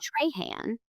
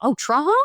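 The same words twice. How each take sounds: First: "Trahan" as TRAY-han, softly questioned; "Trahan" rhyming its end with man; outsider's pronunciation. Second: "Trahan" as TRAH-hah, higher; "Trahan" French-style, final N dropped; local pronunciation. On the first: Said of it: "a teacher from somewhere totally different". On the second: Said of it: "Here is Trahan". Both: Retold or imitated.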